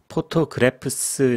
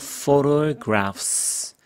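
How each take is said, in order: First: The word begins with a p sound. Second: The word begins with an f sound. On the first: The speaker calls it wrong. "이러면 안 됩니다" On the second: The speaker calls it right. "PH 발음은 F 발음입니다"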